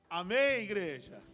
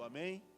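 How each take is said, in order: First: It is said loudly, in a thundering voice. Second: It is said softly, without force.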